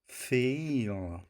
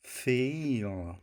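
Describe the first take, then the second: First: The vowel moves from short to long. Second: The same.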